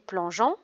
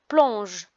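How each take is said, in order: First: The final ending is sounded as a nasal vowel. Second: The final ending is silent. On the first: The speaker calls it wrong. "On ne dit pas" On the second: The speaker calls it right. "On dit"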